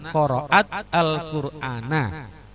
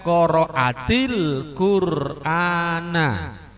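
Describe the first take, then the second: First: Qara'at ends without a vowel before al-Qur'ana. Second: Qara'at takes an added i sound into Qur'ana. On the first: The speaker calls it wrong. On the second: The speaker calls it right.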